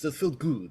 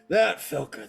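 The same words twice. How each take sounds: First: It is said in a much deeper voice. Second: It is said in a higher, normal voice.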